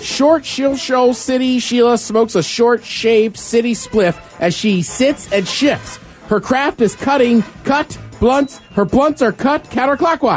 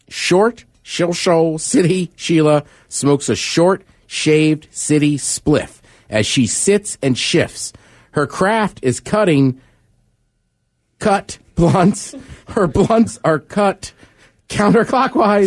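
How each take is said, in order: First: It is read fast. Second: It is read at a normal speed.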